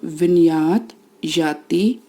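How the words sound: It is split into two separate words. The speaker calls it right. "संधि विच्छेद करके पढ़ेंगे"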